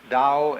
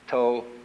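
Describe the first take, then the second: First: It is said in Mandarin pronunciation. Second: It is said in Cantonese pronunciation.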